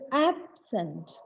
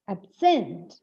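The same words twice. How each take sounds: First: The stress is on the first syllable. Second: The stress is on the second syllable. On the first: The word is used as an adjective. "when this word absent is used as an adjective, the stress should fall on the first syllable" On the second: The word is used as a verb. "From the first syllable, stress moves on to the second syllable"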